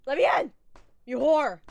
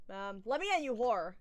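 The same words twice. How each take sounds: First: Loud playful yelling at the door; hammed-up demand to be let in; mock yell. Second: Said in the usual way. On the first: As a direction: bang on the door and shout.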